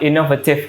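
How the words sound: The vowel in the -ative ending is reduced. "kalau di British"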